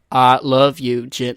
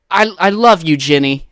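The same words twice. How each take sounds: First: Forrest Gump. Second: Loud, overeager declaration in own voice; hammy, failed movie impression; bad actor's audition line. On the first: Retold or imitated. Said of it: "you have to at least, like". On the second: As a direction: overact it without any character voice. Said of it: "you didn't make the Forrest Gump voice at all".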